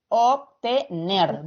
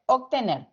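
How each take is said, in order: First: Obtener said slowly, syllable by syllable, NER stressed; ob-te-NER dictated slowly. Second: Said in the usual way. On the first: Shown as a demonstration. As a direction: drag out Obtener for the class. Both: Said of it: "Dónde se carga la voz".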